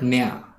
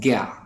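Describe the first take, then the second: First: The syllable begins with a nasal n sound. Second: The syllable begins with a hard g sound. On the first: "not nya. Others, they pronounce it as nya" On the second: "we from the Hindi speaking part of India, we pronounce pronounce this this thing as gya"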